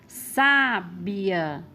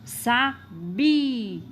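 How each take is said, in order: First: The stress is on the first syllable. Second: The stress is on the middle syllable. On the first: "a sílaba tônica é sa, ou seja, a antepenúltima sílaba" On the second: "a sílaba tônica é bi, a penúltima"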